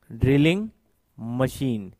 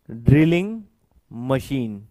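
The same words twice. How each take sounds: The two takes are said the same way.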